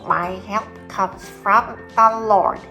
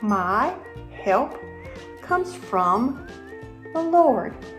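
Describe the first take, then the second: First: It is said in a pinched, nasal mosquito voice. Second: It is said in a normal voice.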